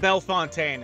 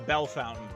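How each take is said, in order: First: The name ends in a French-like 'fontaine' sound. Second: The name ends like the English word 'fountain'. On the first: The speaker calls it wrong. "it's not Bellefontaine" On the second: The speaker calls it right. "That's how you say it"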